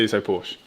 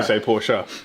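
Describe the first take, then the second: First: It is pronounced the English way. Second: It is pronounced the German way.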